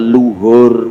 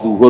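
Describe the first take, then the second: First: The word begins with an l sound. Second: The word begins with a z sound. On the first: This is how old people used to say it. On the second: This is the Arabic form of the word.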